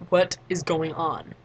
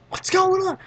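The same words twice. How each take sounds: First: Slow, evenly spaced question at usual pitch; deliberate, measured mock confusion; slow bewilderment. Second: High, loud startled question; raised-pitch, louder mock panic; mock alarm. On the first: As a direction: draw out each word as a retold baffled question. Own bewildered question after screaming. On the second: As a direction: imitate bystanders calling out in confusion. Others alarmed by all the screaming.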